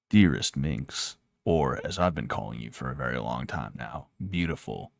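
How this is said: It is read in a put-on voice.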